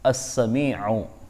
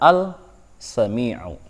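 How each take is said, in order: First: The l merges into the following consonant. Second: The l is pronounced before the consonant. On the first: The speaker calls it right. "memasukkan lam mati" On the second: The speaker calls it wrong. "Tidak boleh membaca"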